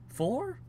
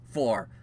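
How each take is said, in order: First: "four" rising high into a question. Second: "four" dropping to a firm statement; confirming FOUR. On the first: Streamer checking the season number, questioning "four". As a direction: say "four" as an unsure question, pitch climbing. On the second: Streamer confirming the season number, decided "four". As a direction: say "four" as a settled answer, falling pitch. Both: Real, not acted.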